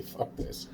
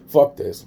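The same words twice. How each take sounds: First: Soft fed-up whisper, barely voiced; whispered curse. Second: Fed-up curse blurted out loud. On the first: Fed up with the duck murder rumors, whispering. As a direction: breathe the curse out. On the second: Done with the duck murder rumors, loud outburst. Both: Real, not acted.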